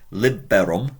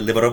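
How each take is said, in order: First: The word is said at an ordinary pace. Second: The word is said quickly, over and over. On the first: "instead of saying for accusative" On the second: "if you say it so many times quickly"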